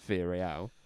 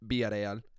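First: It is said in a plain English accent. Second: It is said in a Spanish accent.

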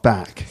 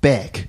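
First: The vowel sounds like a plain open a. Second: The vowel sounds close to an eh sound. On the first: "not back" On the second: "which is almost like an eh sound"

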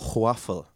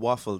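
First: The word begins with a breathy hw sound. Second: The word begins with a plain w sound. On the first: The speaker calls it wrong. "They put a H before the W" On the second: The speaker calls it right. "instead of saying waffle"

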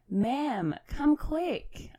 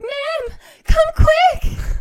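First: It is read out plainly, without screaming. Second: It is said as a horrified scream.

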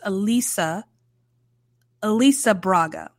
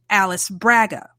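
First: The name is said the Brazilian Portuguese way. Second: The name is read like an American English spelling. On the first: The speaker calls it right. "Apparently it's Elisa Braga, which is beautiful" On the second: The speaker calls it wrong. "my brain wants to phonetically pronounce that Alice Braga. That's not right"

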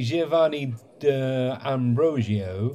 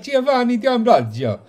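First: The name is said in a plain English accent. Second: The name is said in an Italian accent.

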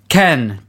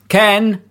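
First: It is read in a plain, natural voice. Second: It is read in a harsh, robotic voice. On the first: "I should do a voice, right?" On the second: "I was thinking more like a kind of like Dalek"

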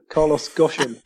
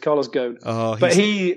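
First: The surname is said like 'Goshen'. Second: The surname is said like 'Ghosn'. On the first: The speaker calls it wrong. "Chris Stevens went with Goshen" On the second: The speaker calls it right. "but it is Ghosn"

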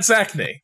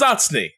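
First: The name is said in an Americanized pronunciation. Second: The name is said in its original pronunciation. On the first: This is how the name is said in America. The speaker calls it wrong. "You're pronouncing it wrong. And I was like, well, you know, America" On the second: This is how the name is properly said. The speaker calls it right. "It's Zatzny, not Zachney. You're pronouncing it wrong"

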